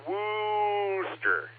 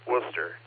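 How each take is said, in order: First: The first syllable has a long 'oo' vowel. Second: The first syllable sounds like 'wuss'. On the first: The speaker calls it wrong. "not Wooster" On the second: The speaker calls it right. "like your big wuss"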